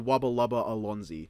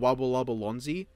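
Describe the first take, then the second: First: The last word starts with an extra vowel sound. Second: The last word starts directly with an L sound. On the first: This is how it is really written. "it's actually" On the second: This is how most people say it. "most people call it"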